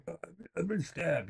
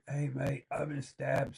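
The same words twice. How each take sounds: First: Higher, strained mock victim; mimicking the stabbed teenager pleading weakly; imitating gurgling victim. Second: Mock casual liar. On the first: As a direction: gasp it out like the stabbed kid. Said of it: "he's gurgling, going". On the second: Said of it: "a common thing to say in England?".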